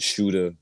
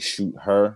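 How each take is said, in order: First: It is run together as one word. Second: It is split into two separate words. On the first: It sounds like a person who shoots. The speaker calls it wrong. "you could pronounce it Shooter" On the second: It is an act plus an acronym. The speaker calls it right. "but it's actually Shoot Her"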